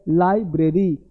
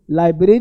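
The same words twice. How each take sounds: First: "लाइब्रेरी" as lai, bre-ree in two parts; correct pronunciation. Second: "लाइब्रेरी" shortened to lai-bree; wrong pronunciation. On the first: Teacher shows the right form, correct pronunciation. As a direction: give "लाइब्रेरी" its full r after b. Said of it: "यह सही है". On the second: Teacher marks the mistake, wrong pronunciation. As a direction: run "लाइब्रेरी" together, losing a syllable. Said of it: "ये गलत है". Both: Shown as a demonstration.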